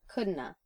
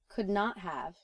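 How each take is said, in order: First: The words run together into one reduced form. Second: All words are pronounced fully and separately.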